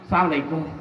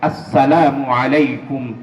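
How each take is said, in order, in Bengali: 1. সালামটি সংক্ষিপ্ত, কিছু ধ্বনি গিলে ফেলা হয়। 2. সালামের প্রতিটি শব্দাংশ স্পষ্টভাবে উচ্চারণ করা হয়। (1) "এভাবে সালাম দিলে সালামের অর্থ পরিবর্তন হয়ে যাবে" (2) "সালামটা বিশুদ্ধ উচ্চারণ করতে হবে"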